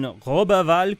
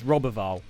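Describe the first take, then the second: First: The name is said with a French accent. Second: The name is said with an English accent. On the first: This is how local French speakers say it. "You have to pronounce it like that" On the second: This version would upset French Canadians. "If I'm going to pronounce that in English"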